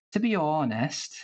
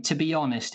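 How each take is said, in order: First: Welsh accent. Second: Said in the usual way. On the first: Shown as a demonstration. Showing the panel an easy one, Welsh accent. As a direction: stretch the first syllable of "honest", Welsh style. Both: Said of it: "elongating a particular syllable of a word".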